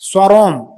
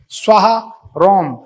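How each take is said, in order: First: Shortened and run together with no pause. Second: Full 'svaha', then a pause, then 'rom'. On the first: It asks the god to burn the speaker to ash. The speaker calls it wrong. "Shortcut में मंत्र पढ़ रहा" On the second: It asks the god for protection. The speaker calls it right. "स्वाहा के बाद विराम, फिर है रोम"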